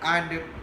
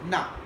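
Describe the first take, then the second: First: The word is said with its full vowel. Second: The word is reduced to a weak 'na'. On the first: "we are using and in its strong form" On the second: "reduced to na sound"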